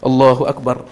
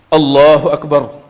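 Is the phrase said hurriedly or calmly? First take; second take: hurriedly; calmly. First: The phrase is rushed out quickly. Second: The phrase is said at an unhurried pace. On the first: The person is hurrying to catch the bowing leader. The speaker calls it wrong. "ingin cepat-cepat" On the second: The person says it fully while standing upright. The speaker calls it right. "tapi takbiratul ihramnya harus tegak berdiri"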